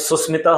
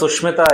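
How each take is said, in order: First: The middle of the name has an 's' sound. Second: The middle of the name has a 'sh' sound. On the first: The speaker calls it wrong. "तो सुस्मिता हो गया" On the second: The speaker calls it right. "कोई अगर मान लो सुष्मिता आई"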